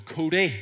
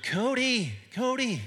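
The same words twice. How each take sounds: First: Loud, higher Northern Irish shout of a name; Northern Irish call. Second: Much higher, louder mock American call of a name; terrible American accent. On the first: Retold or imitated. Camp counselor calls his camper across a huge field, loud Northern Irish accent. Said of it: "because I had a Northern Irish accent". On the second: American counselors calling campers, hammed-up terrible American accent. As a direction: ham up a bad American accent calling a kid. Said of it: "really terrible, terrible American accent".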